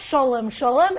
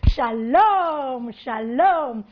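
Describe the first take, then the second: First: The first vowel is an 'o' sound. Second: The first vowel is an 'a' sound. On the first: This is the usual way the community says it. "the pronunciation is not" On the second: The speaker marks himself as an outsider. "It's shalom"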